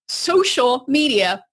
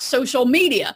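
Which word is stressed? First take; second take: social; media. First: The stress is on the word social. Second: The stress is on the word media. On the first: It is about connecting with others. The speaker calls it right. "it's social media" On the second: It is about broadcasting oneself. The speaker calls it wrong. "not social media, meaning it's not all about you"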